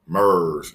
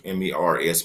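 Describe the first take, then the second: First: Said in the usual way. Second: M E R S said as four separate letters; spelling M E R S to clarify; spelled out. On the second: Shown as a demonstration.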